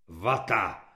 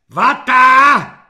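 First: Low, grumpy grunt; surly grunt. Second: High, very loud jeering yell; mocking shout. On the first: Burly kulak reporting to the corporal, surly grunt. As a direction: grunt it out grudgingly, pitched well down. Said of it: "zachrochtal kulak Nevrle". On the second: Corporal mocking the recruit's answer, jeering shout. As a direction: yell it back in scorn. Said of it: "vykřikl Halík posměšně". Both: A narrator's reading.

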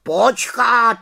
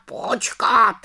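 First: High, loud sharp cut-in; raven interrupting. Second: High, falling cut-in, less loud; raven interrupting. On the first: Raven Abraxas interrupting the little witch, high and loud. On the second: Raven Abraxas interrupting the little witch, high falling. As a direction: repeat it firmer, settling down. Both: Acted. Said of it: "skočil jí do řeči Havran".

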